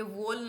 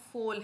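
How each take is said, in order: First: "वोल" begun with a voiced English v; mispronounced "वोल", v instead of f; wrong V sound. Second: "फोल" begun with a crisp f; German V in "फोल" pronounced as f; correct F sound. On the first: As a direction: say "वोल" with v as in van. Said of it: "ये वोल नहीं है". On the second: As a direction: say "फोल" with f as in fun. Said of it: "वी हमेशा फ की sound करेगा". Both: Shown as a demonstration.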